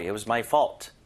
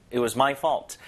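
First: "fault" slightly lifted and rising; light stress on fault. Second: "my" stressed to show the fault is yours. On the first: Teacher modelling an apology with "fault" stressed. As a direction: lean gently on "fault". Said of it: "fault의 강세를 살짝 줘도 되는데". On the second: Teacher modelling an apology with "my" stressed. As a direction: push "my" and let "fault" settle. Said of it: "소유격의 강세를 주기도 합니다". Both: Shown as a demonstration.

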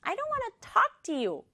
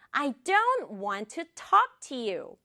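First: Quicker, high-pitched sulky retort; snapping back. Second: Slow, carefully separated words; slow model. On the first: Acted. Sister refusing her brother, high snappy retort. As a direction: fire it back high and huffy. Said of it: "훅 쏘아붙였어요". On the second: Shown as a demonstration. Teacher modelling the sentence, slow and clear. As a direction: say "I don't want to talk to you" slowly and clearly.

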